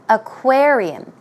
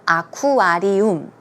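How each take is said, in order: First: It is said with a native English pronunciation. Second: It is said with a Korean-style pronunciation. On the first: The speaker calls it right. "Aquarium is the way you should pronounce it" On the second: The speaker calls it wrong. "often in Korean pronunciation, I hear aquarium"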